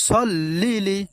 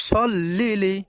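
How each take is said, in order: Both takes have the same delivery.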